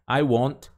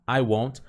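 No difference in how they are said.

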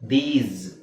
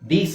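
First: The word ends with a buzzing z sound. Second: The word ends with a hissing s sound. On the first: The speaker calls it right. "ಝೆಡ್ ಬರುತ್ತೆ" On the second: The speaker calls it wrong. "ದೀಸ್ ಅಲ್ಲ"

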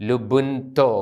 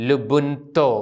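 The two takes are said the same way.

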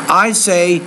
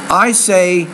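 No difference in how they are said.

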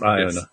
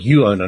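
First: The name does not begin with 'you'. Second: The name begins with a 'you' sound. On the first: The speaker calls it wrong. "not Iona" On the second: The speaker calls it right. "Sorry, Iona"

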